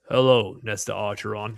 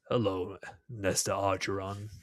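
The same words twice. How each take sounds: First: The voice is deep but smoother, less guttural. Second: The voice is deep, harsh and guttural. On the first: The speaker calls it right. "There you go" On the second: The speaker calls it wrong. "that's too guttural"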